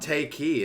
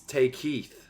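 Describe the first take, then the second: First: The name ends on a vowel without a th. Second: The name ends with a th sound. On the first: The speaker calls it wrong. "it's not Take He" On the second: The speaker calls it right. "It's Take Heath"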